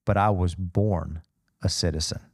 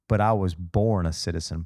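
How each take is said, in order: First: Slow and weighty, lower pitch; dramatic slow delivery. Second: Said in the usual way. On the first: Shown as a demonstration. Preacher quoting Paul's reply, slow and dramatic. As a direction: land each word with a dramatic beat. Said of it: "Dramatic beat". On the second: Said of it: "He goes".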